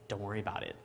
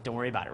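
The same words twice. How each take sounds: First: Low, soft mock-cool reply; trying to be smooth. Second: Trying to be smooth. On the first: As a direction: play it smooth and unbothered, a bit quieter. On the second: Retold or imitated. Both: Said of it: "trying to be all smooth".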